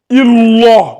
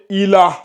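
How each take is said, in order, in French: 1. Le L est lourd et emphatique. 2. Le L est léger et fin. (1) "ça va pas donner euh, illah, non" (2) "ça va donner ilah"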